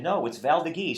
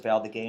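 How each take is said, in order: First: Val d'Agay ending in "ghee", pitched up; French visitors' correction. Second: Val d'Agay ending in a "gay" sound; old local pronunciation. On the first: Retold or imitated. French visitors correcting the winemaker, Val d'Agay said with final "ghee". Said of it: "some French people came". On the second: Shown as a demonstration. Winemaker recalling how everybody said it, ending in "gay". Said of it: "everybody used to pronounce it".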